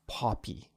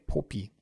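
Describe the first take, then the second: First: The first vowel sounds like 'aw'. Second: The first vowel sounds like 'oh'. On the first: The speaker calls it right. "With that aw sound instead of an O sound" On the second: The speaker calls it wrong. "then I should say Poppy"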